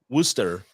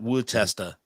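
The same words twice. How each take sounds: First: The name is said short, starting with 'woo'. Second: The name is said with more syllables spelled out. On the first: The speaker calls it right. "The woo woo" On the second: The speaker calls it wrong. "not Worcester"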